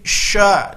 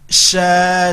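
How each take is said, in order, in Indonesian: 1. Bibir didorong ke depan dan dibulatkan. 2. Bibir tetap netral, tidak didorong ke depan.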